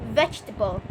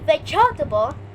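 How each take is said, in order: First: The middle e sound is dropped entirely. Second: The middle e sound is clearly pronounced. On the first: The speaker calls it right. "You don't say E, you say vegetable" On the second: The speaker calls it wrong. "Don't say"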